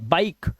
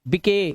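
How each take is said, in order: First: The final e is silent, giving one syllable. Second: The final e is voiced as an extra syllable. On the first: The speaker calls it right. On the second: The speaker calls it wrong.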